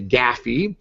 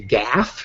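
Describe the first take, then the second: First: It is two syllables rhyming with taffy. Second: It is one syllable rhyming with laugh. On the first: "Or taffy" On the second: "rhymes with laugh"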